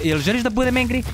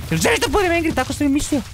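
First: Said in the usual way. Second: Higher, pushed mock-angry question; a playful threatening challenge; mock threat. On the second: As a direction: tease the dino with fake menace.

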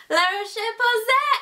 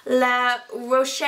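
First: La Roche Posay in a playful put-on French accent, slow and rising; mock French accent. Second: Said in the usual way. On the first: Shown as a demonstration. Vlogger tries the brand name in a mock French accent. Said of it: "I sound like I'm speaking French". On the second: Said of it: "I wanna screw you up".

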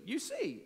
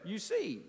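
First: You see, with see jumping much higher; pitched-up you see. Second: Said in the usual way. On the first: Shown as a demonstration. Preacher pressing his congregation: higher emphatic you see. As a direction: lift the second you see up high to press it home.

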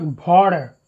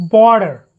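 First: "border" turned into "porder"; wrong aspirated B. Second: "Border" with a firm voiced B; unaspirated B. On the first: Teacher shows students the mistake, "border" said as "porder". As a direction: start "border" with a puffed P sound. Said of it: "That's wrong". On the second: Teacher models the rule, voiced B in "Border". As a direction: hit the B of "Border" with voice and no puff. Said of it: "Bo is never aspirated". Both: Shown as a demonstration.

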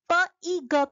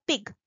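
First: "P, E, G" as phonic p, short i, g; sounded out. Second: "pig" joined as one word; blended word. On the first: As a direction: sound out "P, E, G", not as letter names. ("P, E, G" अलग-अलग ध्वनियों में) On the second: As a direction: blend the three sounds into "pig". ("pig" एक शब्द में जोड़कर) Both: Shown as a demonstration. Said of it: "write a middle sound".

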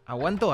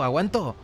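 First: "¿Aguanto?" asked with a rising tune; "¿Aguanto?" as a real question, voice lifting at the end; questioning rise. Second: "¿Aguanto?" with the tune falling at the end; "¿Aguanto?" said flatly, pitch falling to close; settling fall. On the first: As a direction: wonder aloud whether to hold it, "¿Aguanto?" ending up. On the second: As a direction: answer yourself, "¿Aguanto?" dropping down. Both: Real, not acted.

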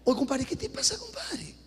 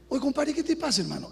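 First: Light Peruvian buddy talk, rising on te; a hint of a Peruvian chiding a compadre. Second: Light Peruvian street talk to a compadre; a hint of a Peruvian scolding a buddy. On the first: Pastor chiding the married man as Peruvians talk, light Peruvian tone. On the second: Pastor scolding a married man in a light Peruvian manner. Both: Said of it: "Ahí estoy hablando como peruano".

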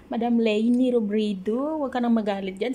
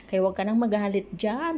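First: Louder mock plea. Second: Said in the usual way. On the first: Calling out to Madam Leni.

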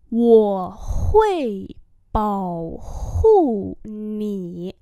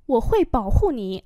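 First: Wo hui bảo hộ nǐ syllable by syllable; slow demonstration. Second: Said in the usual way. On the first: Shown as a demonstration. Teacher repeats a sentence for learners, slowly.

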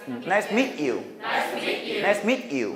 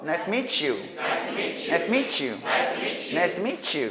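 First: "Nice to meet you" with T stopped before you; unlinked "Nice to meet you"; cut between words. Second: "Nice to meet you" ending mee-choo; smooth linked "Nice to meet you". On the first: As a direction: halt on "meet", then "you". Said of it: "끊어서 발음하는 방법". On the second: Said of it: "연음하는 방법". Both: Shown as a demonstration.

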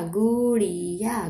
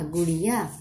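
First: Gudiya stretched slowly; sounding out slowly. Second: Said in the usual way. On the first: Shown as a demonstration. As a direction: draw out Gudiya syllable by syllable.

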